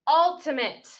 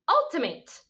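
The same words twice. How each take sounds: First: The last syllable sounds like 'it'. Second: The last syllable rhymes with 'eight'. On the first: The speaker calls it right. "this time let's use the schwa sound here for the letter A" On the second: The speaker calls it wrong. "we're going to say the long vowel A sound here"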